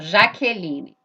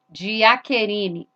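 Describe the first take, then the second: First: It is said with a Brazilian Portuguese accent. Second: It is said with a Japanese accent. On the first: "Vamos ver aqui, ó" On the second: "Como que o japonês vai falar Jaqueline? Vai falar assim"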